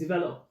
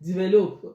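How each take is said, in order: First: It is said the standard way. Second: It is said the Nigerian way. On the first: The speaker calls it right. "I have to say it's develop" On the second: The speaker calls it wrong. "in Nigeria, we'll call it develop"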